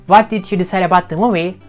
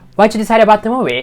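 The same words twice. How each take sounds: First: Every word, including "did", is said in full. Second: "What did you" is squeezed into one reduced chunk. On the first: The speaker calls it wrong. "instead of saying like" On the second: The speaker calls it right. "Try to say it like"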